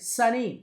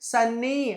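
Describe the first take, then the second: First: The middle n sound is short and single. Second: The middle n sound is doubled and held. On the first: The speaker calls it right. "అందుచేతన ఒక ఎన్నే చెప్తాం" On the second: The speaker calls it wrong. "సన్నీ అంటాం మనం. అలా కాదు"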